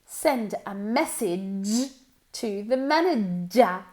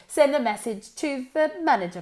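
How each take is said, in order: First: The sounds are pronounced in an exaggerated way. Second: The sounds are pronounced in a natural way. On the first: "We're really going to focus on the sound and exaggerate it" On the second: "Now more naturally"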